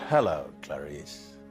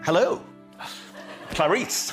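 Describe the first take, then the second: First: It is said in a scary, menacing way. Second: It is said in a light, romantic way.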